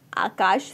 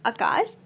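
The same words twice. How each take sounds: First: Said in the usual way. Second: आकाश with a short first vowel, "a-kaash"; shortened vowel. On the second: Shown as a demonstration. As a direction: open आकाश on a brief a rather than aa. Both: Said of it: "प्राय एक मात्रा".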